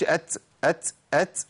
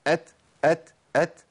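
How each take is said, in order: First: أت with an s hissed after the ت, ats; ts error. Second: أت ending in a clean puff of air; breath without sound. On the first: Teacher showing the mistake, أت said as hissy ats. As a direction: turn the ت of أت into ts. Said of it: "ما أقولش أت". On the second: Teacher drilling the clean letter, أت with plain airy release. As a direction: release the ت of أت with breath alone, no hiss. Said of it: "مفيش صوت بيطلع". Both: Shown as a demonstration.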